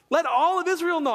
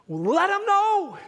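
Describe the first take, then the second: First: Said in the usual way. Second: High, slow, stretched plea; drawn-out command. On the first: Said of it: "repeated command". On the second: Real, not acted. Preacher urging the congregation to tell others, stretched and high. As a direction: stretch every word as a call to action. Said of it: "preacher repeats the command".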